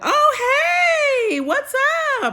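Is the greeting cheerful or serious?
cheerful. The greeting sounds cheerful and friendly.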